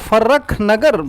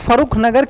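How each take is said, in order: First: The name is said with a doubled 'rr' sound. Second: The name is said with a 'ru' sound. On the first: This is how people commonly say it. "फर्रख नगर बोला जाता है" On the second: This is the formal or written name. "फरुख नगर की बजाय"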